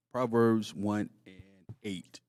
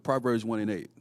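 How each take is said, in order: First: Slowly, each word spaced out; slow and deliberate. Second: Said in the usual way. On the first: Shown as a demonstration. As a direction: spell out the reference slowly. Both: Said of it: "go to Proverbs real quick".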